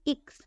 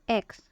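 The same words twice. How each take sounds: First: X with a short i before ks; German letter X. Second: Said in the usual way. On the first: Shown as a demonstration. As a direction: say X as German "iks". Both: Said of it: "it sounds like X".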